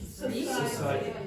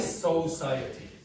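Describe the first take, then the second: First: The first vowel is short and weak. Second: The first vowel is full and strong. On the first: The speaker calls it right. "You'd say so, society" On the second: The speaker calls it wrong. "you wouldn't say this like a strong vowel"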